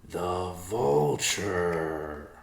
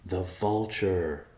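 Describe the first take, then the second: First: Very slow, dawning realisation; slow epiphany. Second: Said in the usual way. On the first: Acted. Riverpaw realising the answer, slow epiphany. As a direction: draw out The vulture as it dawns on you. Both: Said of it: "said in slow epiphany".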